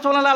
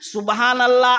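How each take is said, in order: First: The phrase is rushed with syllables clipped together. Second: The phrase is said fully with every syllable clear. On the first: The speaker calls it wrong. "এইরকম নয়" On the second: The speaker calls it right. "পুরো শব্দটা যেন উচ্চারণ হয়"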